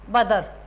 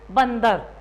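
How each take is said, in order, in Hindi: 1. d से पहले कोई नासिक्य ध्वनि नहीं है। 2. d से पहले नासिक्य n ध्वनि आती है। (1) "हम इसको क्या बोलेंगे" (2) "होता क्या हमारा शब्द"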